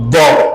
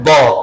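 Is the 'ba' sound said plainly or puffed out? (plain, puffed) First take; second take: puffed; plain. First: The sound is puffed out with bulging cheeks. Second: The sound is crisp without any puffing out. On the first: The speaker calls it wrong. "Tidak boleh melendung, tidak boleh ba" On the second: The speaker calls it right. "Tapi ba"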